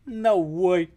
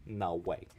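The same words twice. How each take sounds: First: High, loud put-on character voice; quoting a video gecko. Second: Said in the usual way. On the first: Crocheter quoting an old YouTube gecko, loud character voice. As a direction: blurt it like a cartoon gecko. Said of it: "Anybody know what I'm quoting there?".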